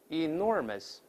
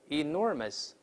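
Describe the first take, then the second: Both takes have the same delivery.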